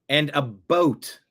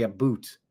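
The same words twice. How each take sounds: First: "boat" said with a long clear o, as in a boat you sail. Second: "boot" said with a long oo, the Canadian "about"; "boot" with a tight oo sound. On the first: Explaining how Canadians say it, a long o in "boat". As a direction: draw out "boat" with a rounded o. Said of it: "It's often pronounced a boat". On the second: Showing viewers the Canadian way, "boot" with a long oo. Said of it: "but we say a boot". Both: Shown as a demonstration.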